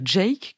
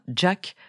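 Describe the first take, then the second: First: The vowel is a long 'ay' sound. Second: The vowel is a short 'a' sound. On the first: The speaker calls it right. "il faut bien dire Jake" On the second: The speaker calls it wrong. "et pas Jack"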